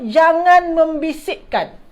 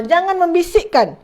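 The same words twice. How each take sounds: First: Slow, deliberate, each word set out; slow teacher's model reading; slow clear translation. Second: Said in the usual way. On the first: Shown as a demonstration. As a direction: say it slowly for the class. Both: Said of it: "maknanya apa?".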